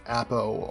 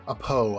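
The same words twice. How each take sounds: First: Appo with stress up front, AP-oh; first pronunciation of Appo. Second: Apo drawn out as uh-POH; alternative pronunciation of Apo. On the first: Reviewer naming the clone for viewers, Appo said AP-oh. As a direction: say "Appo" as AP-oh, short first vowel. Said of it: "however you wanna say it". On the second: Reviewer offering viewers another option, Apo said uh-POH. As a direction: say "Apo" slowly, stress on the second syllable. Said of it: "People say it differently". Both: Shown as a demonstration.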